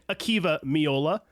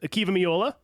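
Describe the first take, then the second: First: The name is said slowly and carefully. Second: The name is said quickly. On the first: The speaker calls it right. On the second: The speaker calls it wrong.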